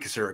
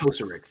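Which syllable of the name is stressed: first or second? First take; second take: second; first. First: The stress is not on the first syllable. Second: The stress is on the first syllable. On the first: "It might be Kocurek, actually" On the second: "Emphasis on the first syllable"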